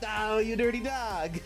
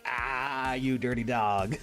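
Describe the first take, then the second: First: It sounds surprised, as if unexpected. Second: It sounds knowing, as if expected.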